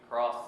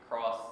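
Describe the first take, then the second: The two takes are said the same way.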